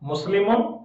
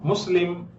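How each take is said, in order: First: The word ends with the syllable -un. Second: The word ends on the consonant m.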